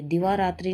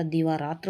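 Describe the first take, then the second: First: दिवारात्रि ending in tri; wrong form. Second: दीवारात्र ending in tra; correct form. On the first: Teacher showing the error, दिवारात्रि ending in tri. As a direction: finish दिवारात्रि on an i vowel. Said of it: "नहीं होता". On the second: Teacher correcting the word, दीवारात्र ending in tra. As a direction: drop the final i from दीवारात्र. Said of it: "होता है". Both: Shown as a demonstration.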